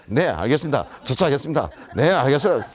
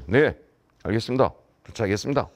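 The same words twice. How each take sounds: First: Confident rote phone reply; imitated self-assured autopilot response; breezy confidence. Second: Low-pitched, going-through-the-motions reply; half-hearted stock phone answer; perfunctory. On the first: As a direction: toss off the stock answer with assurance. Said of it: "이러고 이제 자신감을 가졌는데". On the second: Retold or imitated. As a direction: imitate answering callers with no sincerity. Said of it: "그냥 성의도 없이".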